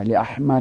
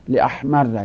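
First: لاحمر as "li-ahmarri"; kasra ending. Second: لاحمر loud, doubled r, final "a"; لاحمر as "li-ahmarra"; fatha ending. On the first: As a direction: say لاحمر with a doubled r and final "i". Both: Shown as a demonstration.

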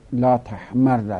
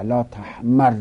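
First: Slow لا تحمر, held double r, final "a"; لا تحمر as "la tahmarra"; fatha ending. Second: لا تحمر loud, doubled r, final "i"; لا تحمر as "la tahmarri"; kasra ending. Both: Shown as a demonstration.

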